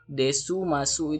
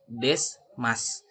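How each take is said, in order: First: The final u vowels are clearly pronounced. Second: The final u vowels are dropped. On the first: The speaker calls it wrong. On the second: The speaker calls it right. "dibacanya des mas"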